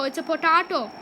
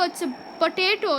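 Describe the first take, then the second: First: POTATO said po-TAH-to; potato with broad A. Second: POTATO said po-TAY-to; potato with long A. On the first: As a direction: say potato with an "ah" in the middle. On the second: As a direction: say potato with an "ay" in the middle. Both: Shown as a demonstration. Saying the word two ways.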